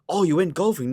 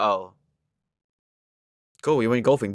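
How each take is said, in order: First: It sounds curious and interested. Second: It sounds indifferent and uninterested.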